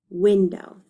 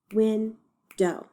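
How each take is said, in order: First: Said in the usual way. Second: WINDOW split in two, win, then dow; broken into syllables. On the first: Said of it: "let's read the word". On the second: Shown as a demonstration. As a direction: count out WINDOW with a gap between syllables. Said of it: "decide how many syllables it has".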